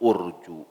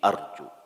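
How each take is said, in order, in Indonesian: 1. Vokal pertama adalah bunyi u bulat. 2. Vokal pertama adalah bunyi a terbuka. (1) "bukan urju" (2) "tapi arju"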